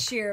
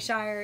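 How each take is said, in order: First: The ending rhymes with 'here'. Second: The ending rhymes with 'fire'. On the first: This is the correct way to say it. "it is sheer" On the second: This is the speaker's habitual way to say it. "but I still say shire"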